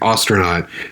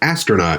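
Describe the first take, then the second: First: The first vowel sounds like the 'au' in Austria. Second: The first vowel is a short 'a' as in 'ast'. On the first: "the way that you're pronouncing it uh, with astronaut, it, it sounds like A U. So it's like Austria" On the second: "which is just the A S T"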